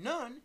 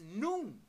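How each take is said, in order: First: The vowel is short, like in none. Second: The vowel is long, like in noon. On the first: The speaker calls it wrong. "rather than none" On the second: The speaker calls it right. "pronounced with the U sound in the word noon being long"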